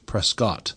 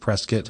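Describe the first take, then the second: First: The name is said in the English way. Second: The name is said in the local way. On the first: This is how outsiders expect it to be said. "versus the very English Prescott" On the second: This is how the city's residents say it. "why we pronounce it Prescott"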